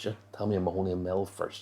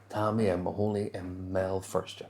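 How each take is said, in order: First: The phrase is spoken quickly. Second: The phrase is spoken slowly. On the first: "I said that really fast" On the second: "we're going to slow it down"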